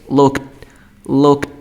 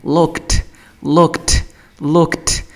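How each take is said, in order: First: "looked" with an unreleased d at the end; final D sound. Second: "looked" ending in a crisp, released t; final T sound. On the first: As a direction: end "looked" on a stopped d, no puff of air. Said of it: "si lo pronuncio con sonido de D". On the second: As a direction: say "looked" as LOOKT with a puff of air. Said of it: "Si lo pronunciase con el sonido de T". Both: Shown as a demonstration.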